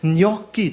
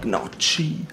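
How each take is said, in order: First: The word is said in the standard way. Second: The word sounds like a sneeze. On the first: The speaker calls it right. "so richtig" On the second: The speaker calls it wrong. "hat die ganze Zeit so gesagt"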